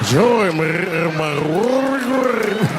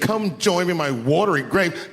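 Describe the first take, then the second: First: It is said in a rolling, gravelly throat voice. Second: It is said in a plain voice.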